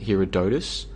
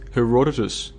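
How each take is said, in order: First: The stress falls on the third syllable. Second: The stress falls before the third syllable. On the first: The speaker calls it wrong. "I was putting the emphasis on the third syllable, the O" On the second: The speaker calls it right. "it's pronounced Herodotus"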